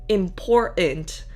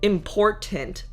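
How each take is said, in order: First: The middle T is a glottal stop. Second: The middle T is clearly released. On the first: The speaker calls it right. "the T is a stopping sound" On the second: The speaker calls it wrong. "I say important with a T in the middle"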